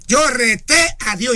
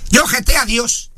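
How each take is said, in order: First: "reté" stretched slowly, with a rolled R; drawn-out mock boast. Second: Said in the usual way. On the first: Preacher repeating a church member's boast to the congregation, drawn out.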